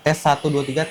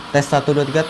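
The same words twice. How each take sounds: First: Street noise behind the voice is heavily suppressed. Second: Street noise behind the voice is clearly audible. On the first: "Dan ini udah gue aktifin noise cancellingnya" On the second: "gue nonaktifin fitur noise cancellingnya"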